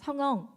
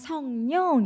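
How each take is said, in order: First: The second syllable starts with no consonant. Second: The second syllable starts with a consonant. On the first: The speaker calls it wrong. "걔가 성엉 이러면" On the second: The speaker calls it right. "아 성령 이렇게"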